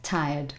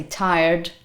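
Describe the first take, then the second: First: Tired with a silent R, British style; tired as TIE-uhd, low and soft; non-rhotic. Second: Tired with an American pronounced R; Donald Trump. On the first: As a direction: say tired without sounding the R. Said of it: "I would say something like". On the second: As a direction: rhotic tired, the R clearly sounded. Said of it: "Donald Trump might say". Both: Shown as a demonstration.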